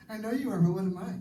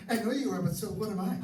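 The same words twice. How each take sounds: First: Put-on higher, louder childish retort; playground taunt. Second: Put-on higher, louder sing-song kid taunt; playground taunt. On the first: Kids arguing on the playground, high sing-song taunt. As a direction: sing it back like a bratty kid. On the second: Mocking a spouse the way kids argue, high sing-song taunt. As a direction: tease like a child on the playground. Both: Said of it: "We learn how to argue as kids".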